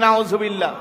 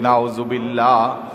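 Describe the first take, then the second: First: It is said even louder. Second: It is said loudly.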